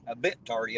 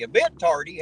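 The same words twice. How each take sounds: First: Said in the usual way. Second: Tardy thrown back as a loud, disbelieving question; incredulous. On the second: Shown as a demonstration. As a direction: repeat it louder, outraged.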